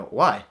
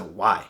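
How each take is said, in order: First: Lower, puzzled, genuinely curious; an innocent, curious why. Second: Mock-incredulous brush-off; a cold, put-off why; hostile why. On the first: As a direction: ask it as a sincere question. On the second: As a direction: lower and softer, dismissive. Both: Shown as a demonstration. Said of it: "Different tone there".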